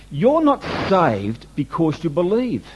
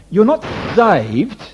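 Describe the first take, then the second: First: «not» в «You're not saved» чуть выделено, медленно; slow, with weight on «not»; stress on not. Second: «not» hit louder and drawn out slowly; slow and emphatic, punching «not»; stress on NOT. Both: Shown as a demonstration. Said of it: "Can I say it again?".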